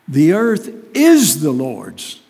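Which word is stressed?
is. The stress is on "is".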